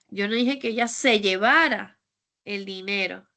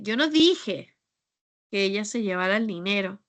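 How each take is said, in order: First: The word 'llevara' carries the main stress. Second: The word 'dije' carries the main stress. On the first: She did something else with the money. "Es que tal vez se lo gastó o hizo otra" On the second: The speaker said or did something else. "Es que tal vez pues dije otra cosa o hice otra cosa"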